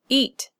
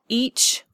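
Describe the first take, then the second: First: The word ends in a t stop. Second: The word ends in a ch sound. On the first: The speaker calls it right. "Eat is one syllable with a stop consonant" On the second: The speaker calls it wrong. "not each"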